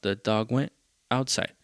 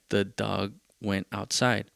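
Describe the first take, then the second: First: "the dog went" run together, a break, then "outside"; re-phrase it with a pause before "outside"; new flow on "the dog went outside", holding back "outside"; alternative cadence. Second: "The dog went outside" in a slow, even reading; measured, straight line delivery of "The dog went outside"; as written. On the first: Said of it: "But how about". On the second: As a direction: read "The dog went outside" slowly, as it is on the page. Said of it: "That's what it says". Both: Shown as a demonstration.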